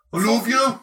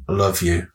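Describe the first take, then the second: First: High, hammed-up Brummie; mock-romantic Brummie, pitched way up; Birmingham accent. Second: Said in the usual way. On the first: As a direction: declare love in an abrasive Birmingham twang. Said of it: "Birmingham's another weird one". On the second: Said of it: "Even when they're being, like, romantic".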